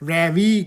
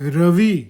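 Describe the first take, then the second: First: The first vowel sounds like 'reh', as in ravioli. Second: The first vowel is a short, neutral 'ruh'. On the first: The speaker calls it wrong. "રેવિયોલીની જેમ રેવી કરે છે" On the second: The speaker calls it right. "ભાઈ એનું નામ રવિ છે"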